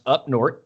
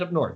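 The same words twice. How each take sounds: First: It is said in a Wisconsin accent. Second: It is said in a plain accent.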